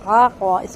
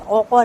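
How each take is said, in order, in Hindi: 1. पहला स्वर सादा खुला 'a' है। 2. पहला स्वर 'au' की तरह गोलाकार है। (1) "आक़ो आक़ो" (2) "औक़ो नहीं"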